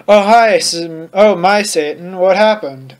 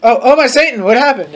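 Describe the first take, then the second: First: Said in the usual way. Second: Higher-pitched, half-hearted scream; mild mock scream. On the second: A narrator's reading. Narrator redoing the startled greeting, mildly screamed. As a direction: retake it with a touch more alarm. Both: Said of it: "I screamed".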